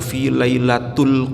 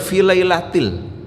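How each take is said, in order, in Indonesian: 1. Kata lailat berakhir dengan vokal u. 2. Kata lailat berakhir dengan vokal i. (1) "semua kita baca dengan harokat dhammah ... pasti salah itu" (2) "yang benar fi lailatil"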